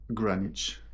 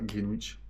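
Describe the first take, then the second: First: It is pronounced in the English way. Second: It is pronounced in a French-style way. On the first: The speaker calls it right. "en anglais, ça se dit Greenwich" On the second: The speaker calls it wrong. "ça se dit pas Greenwich"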